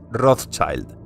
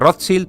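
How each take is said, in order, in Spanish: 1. El nombre se pronuncia con pronunciación inglesa. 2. El nombre se pronuncia con pronunciación alemana. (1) "pasa a ser pronunciada en inglés" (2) "la pronunciación original en alemán"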